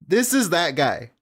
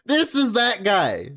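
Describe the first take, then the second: First: Said in the usual way. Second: "This is that guy" slow, with "This" pushed higher; stress on this. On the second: Real, not acted. Streamer pointing at the clip, leaning on "This". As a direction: lean on "This", drawn out.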